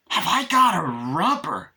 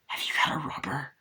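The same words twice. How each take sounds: First: Loud, high, drawn-out mock disbelief; incredulous echo. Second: Whispered acted question; hushed question. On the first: Chucky answering Tiffany's question, loud hammed-up disbelief. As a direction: throw the question back slowly and loudly. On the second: Tiffany stopping Chucky during sex, hushed asking.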